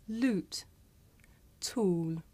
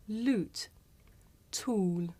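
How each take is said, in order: No difference in how they are said.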